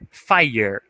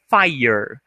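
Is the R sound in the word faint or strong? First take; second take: strong; faint. First: The R sound is clearly pronounced. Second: The R sound is barely heard at the end. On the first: The speaker calls it wrong. "muitas pessoas tendem a falar fire, fire, fire, colocando o R" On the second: The speaker calls it right. "não vai ter esse R, ele vai vir no final, fire, essa é a pronúncia correta"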